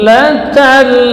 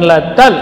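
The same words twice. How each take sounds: First: The lam sound flows on smoothly. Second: The lam sound is abruptly cut off. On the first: The speaker calls it right. "maka dia mengalir sebahagian dari suara" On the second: The speaker calls it wrong. "bukan latal, tidak boleh terputus seperti itu"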